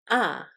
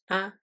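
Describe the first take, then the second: First: The pitch starts high and then falls. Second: It is short and light, without a tone. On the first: "starts high and then falls" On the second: "the neutral sound, which is short and light"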